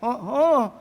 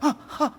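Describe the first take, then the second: First: It sounds surprised and astonished. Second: It sounds frightened and shocked.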